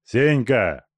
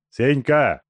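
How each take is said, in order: First: Louder insistent call; repeated call. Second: Loud call, name thrown hard. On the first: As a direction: call him again, harder. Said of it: "повторил Тумба". (повторный окрик) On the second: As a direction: shout his name to wake him. Зовёт связанного Сеньку. (громкий окрик) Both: Acted.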